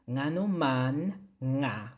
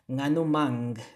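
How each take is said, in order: First: Each word is said separately and in full. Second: The words run together quickly into ngano mang.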